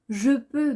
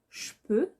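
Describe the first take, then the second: First: The vowel in 'je' is fully pronounced. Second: The vowel in 'je' is dropped. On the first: This is the standard everyday form. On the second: This is the familiar, casual form.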